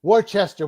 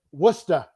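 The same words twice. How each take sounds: First: Worcester said as WOR-chester, every letter sounded; the outsider's WOR-chester reading; spelled-out Worcester. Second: Worcester said short as WUSS-tuh, no r; Worcester clipped to WUSS-tuh the local way; Boston Worcester. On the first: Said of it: "No, we call it Worcester". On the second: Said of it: "we call it Worcester". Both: Shown as a demonstration.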